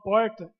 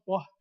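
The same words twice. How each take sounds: First: The R sound is strong and pronounced. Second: The R sound is soft and light. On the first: This is the speaker's own regional accent. "O meu R é um pouquinho mais acentuado que o de vocês. Eu falo porta" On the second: This is the listeners' regional accent. "vocês falam porta"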